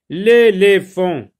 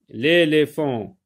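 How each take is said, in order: First: Loud, slow, higher announced word; dictation style. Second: Slow word at ordinary pitch; dictation repeat. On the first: Teacher announcing a new word to pupils, loud dictation style. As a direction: call out the new word, drawn out. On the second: Teacher repeating a word for pupils, measured dictation style. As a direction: repeat the word slowly and evenly. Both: Shown as a demonstration.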